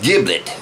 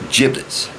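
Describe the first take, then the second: First: The word begins with a hard G sound. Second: The word begins with a soft J sound. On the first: The speaker calls it right. "It's spelled with a G. It's pronounced giblet" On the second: The speaker calls it wrong. "not giblets. G is not a J"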